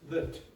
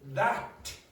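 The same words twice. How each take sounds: First: The word has a reduced schwa vowel. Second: The word has a full open vowel. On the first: The speaker calls it right. "you say that" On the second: The speaker calls it wrong. "you don't say that, ah"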